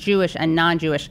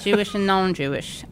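First: It is said in an American accent. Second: It is said in a British accent. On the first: "in American" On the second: "do it again, but in a British accent"

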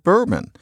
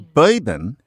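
First: The first vowel sounds like 'ur'. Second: The first vowel sounds like 'oy'. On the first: This is the usual pronunciation. "Ur can go to oy" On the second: This is an old Southern or New York pronunciation. "she says bourbon instead of bourbon ... That oy for"

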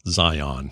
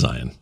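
First: It is pronounced the way non-Utahns say it. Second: It is pronounced the way Utahns say it. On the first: This is how people from outside Utah say it. "some non-Utahns call it Zion for some reason" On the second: This is how people from Utah say it. "It's Zion"

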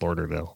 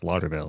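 First: The first syllable sounds like 'lord'. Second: The first syllable sounds like 'law'. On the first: The speaker calls it wrong. "like LORD" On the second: The speaker calls it right. "it's Lauderdale"

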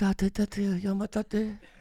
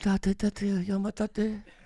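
First: It is said in a put-on boy's voice. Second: It is said in a put-on boy's voice.

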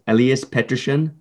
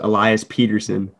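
First: The name is said with Swedish pronunciation. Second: The name is said with English pronunciation. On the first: This is how the name is said in its home language. "the Swedish way" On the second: This is the anglicized version of the name. "the English way he thought sounded best"

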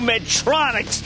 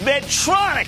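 First: The name ends with an s sound. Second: The name ends without an s sound. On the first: The speaker calls it wrong. "don't pronounce it with an S. There is no Medtronics" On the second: The speaker calls it right. "It's Medtronic"

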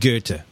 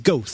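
First: The name is said the German way. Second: The name is read like English spelling. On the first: It is how educated people say the name. The speaker calls it right. "But then I went to college, and they said Goethe" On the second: It is a guess from having only read the name. The speaker calls it wrong. "I would have said it's Goethe"

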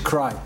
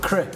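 First: The vowel is long, as in 'cry'. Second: The vowel is short, as in 'crip'. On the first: The speaker calls it right. "it's cry" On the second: The speaker calls it wrong. "It's not cri"

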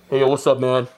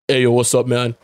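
First: The voice is higher and less deep. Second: The voice is pushed lower and deeper.

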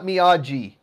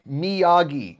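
First: The name is said with Italian-style pronunciation. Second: The name is said without Italian-style pronunciation. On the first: The speaker calls it wrong. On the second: The speaker calls it right.

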